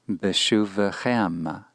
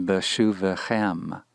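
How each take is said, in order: The two takes are said the same way.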